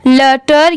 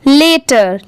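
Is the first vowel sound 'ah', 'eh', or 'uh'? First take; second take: uh; eh. First: The first vowel is a short 'uh' sound. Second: The first vowel is an 'eh' sound. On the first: The speaker calls it wrong. "लटर या लाटर नहीं होगी" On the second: The speaker calls it right. "इसकी pronunciation पूरी क्या होगी, लेटर"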